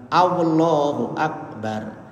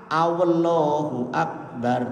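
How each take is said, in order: No difference in how they are said.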